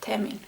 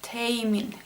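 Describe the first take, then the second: First: The first vowel sounds like 'e'. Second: The first vowel sounds like 'a'. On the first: The speaker calls it right. "but it's E" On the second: The speaker calls it wrong. "mispronounce this as A instead of E"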